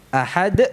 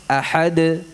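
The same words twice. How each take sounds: First: Ahad ending in a dal closed by a glottal e; dal with hamzah. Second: Ahad with the dal bounced just enough; correct dal. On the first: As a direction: end ahad with an added e sound. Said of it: "Ada suara e". (ahad ditutup hamzah, salah) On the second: (ahad dengan dal secukupnya) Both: Shown as a demonstration.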